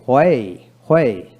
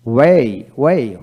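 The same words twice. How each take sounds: First: হোয়ে begun with h before the w; sounded H. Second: ওয়ে begun with a plain w. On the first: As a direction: say হোয়ে as "hwe". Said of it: "ব্রিটিশে হ উচ্চারিত হয়". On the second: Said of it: "আমেরিকানে অ উচ্চারিত". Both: Shown as a demonstration.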